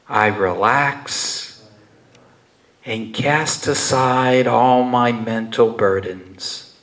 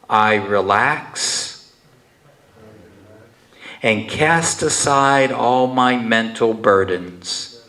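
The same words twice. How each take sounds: First: It is spoken in a quieter, softer voice. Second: It is spoken in a normal full voice. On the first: "again in a softer voice" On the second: "repeat after me in a regular voice"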